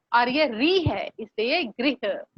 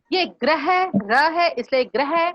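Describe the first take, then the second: First: गृह said slowly with the री vowel; contrast demo गृह. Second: ग्रह said slowly with a clear र cluster; contrast demo ग्रह. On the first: Teacher contrasts गृह with ग्रह for pupils. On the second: Teacher contrasts ग्रह with गृह for pupils. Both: Shown as a demonstration.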